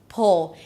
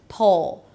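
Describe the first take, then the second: Both takes have the same delivery.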